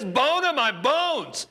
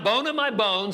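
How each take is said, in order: First: It is said loudly with excited amazement. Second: It is said in a calm, quiet reading voice. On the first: The speaker calls it right. "it had to be such ecstasy" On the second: The speaker calls it wrong. "I seriously doubt that that was his tone of voice or that was his volume"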